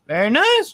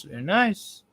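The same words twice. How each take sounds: First: Much higher and louder, rising mock squeal; high, loud, rising mock praise. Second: A light silly-voice echo; put-on echo. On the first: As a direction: squeal it up high like a teasing fan. Reacts to own story, high pitched. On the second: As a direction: repeat it back in a silly voice.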